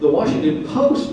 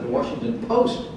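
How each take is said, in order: First: It is said in an incredulous, disbelieving voice. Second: It is said in a plain, matter-of-fact voice.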